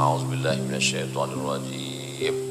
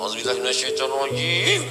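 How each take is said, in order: First: It is said slowly and quietly, without force. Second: It is said fast and heatedly, with force. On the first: The anger is fading. "Udah agak-agak lama dia mulai slow" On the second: The speaker is still angry. "Memang waktu awal-awal tu tak begitu bunyinya"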